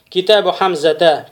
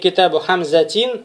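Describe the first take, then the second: First: The last word ends on a vowel without n. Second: The last word ends with an added n sound. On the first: The speaker calls it right. "правильно" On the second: The speaker calls it wrong. "будет уже ошибочным"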